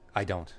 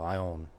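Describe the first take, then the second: First: It is said in full, with every sound. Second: It is said fast, the d sound dropped.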